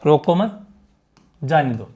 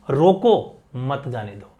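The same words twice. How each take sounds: First: "रोको मत" as one unit, long pause, lower "जाने दो"; "मत" के बाद विराम. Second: "रोको", pause, then "मत जाने दो" together; "रोको" के बाद विराम. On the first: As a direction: pause after "मत", drop on "जाने दो". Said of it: "एक तो ये बात कही मैंने". ("रोको मत" कहकर ठहराव, फिर धीमे सुर में "जाने दो") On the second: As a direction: break after "रोको", run "मत जाने दो" on downward. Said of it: "इस कॉमा की वजह से". ("रोको" पर ठहराव, फिर "मत जाने दो") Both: Shown as a demonstration.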